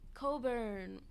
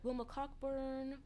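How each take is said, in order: First: The name is said without the 'ck' sound. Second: The name is said with a clear 'cock' sound. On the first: The speaker calls it right. "It's pronounced Coburn" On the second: The speaker calls it wrong. "I'm pronouncing it Cockburn just because it's funnier"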